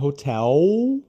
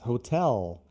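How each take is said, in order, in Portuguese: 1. O L final soa aberto, como uma vogal 'u'. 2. O L final é fechado, com a língua atrás dos dentes. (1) "au, não é aberto assim" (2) "mas hotel. Lá, lá, lá"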